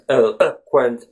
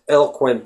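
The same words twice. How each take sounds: First: The vowel after 'el' is a full O. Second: The vowel after 'el' is left out entirely. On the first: "But you don't obviously say eloquent" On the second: "if you just said eloquent, eloquent, that wouldn't be right. There has to be a little bit of some sound inserted"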